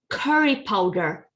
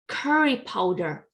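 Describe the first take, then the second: No difference in how they are said.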